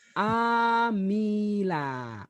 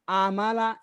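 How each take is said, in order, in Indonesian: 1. Vokal tengahnya bunyi 'i'. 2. Vokal tengahnya bunyi 'a'. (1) "bacanya apa Bu? Amila" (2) "Nggak boleh dibaca alama, amala. Itu haram hukumnya dibaca itu"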